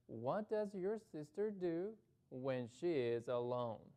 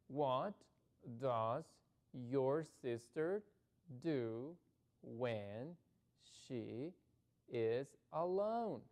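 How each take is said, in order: First: It is read at a quicker pace. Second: It is read at a slower, careful pace.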